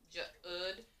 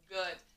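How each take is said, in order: First: The word begins with a J sound. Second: The word begins with a hard G sound. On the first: The speaker calls it wrong. "try with the soft G" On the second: The speaker calls it right. "Let me try it with a hard G, a regular G"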